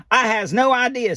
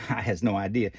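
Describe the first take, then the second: First: Lightly voiced Ernie. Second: Said in the usual way. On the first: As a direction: answer like a cheerful puppet. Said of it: "says Ernie". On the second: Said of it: "me answering my own question".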